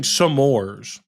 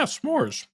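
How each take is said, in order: First: S'mores stretched into two syllables, "suh-MORES"; co-host's mispronunciation. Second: S'mores as one syllable, "smores"; usual pronunciation. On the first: Retold or imitated. Co-host points out the odd pronunciation, s'mores as drawn-out "suh-mores". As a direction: say s'mores slowly with an added vowel after the S. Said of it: "Are you actually pronouncing it s'more". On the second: Shown as a demonstration. Co-host shows how it is said, s'mores in one syllable. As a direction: say s'mores with S running straight into M. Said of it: "Is that not how you say it?".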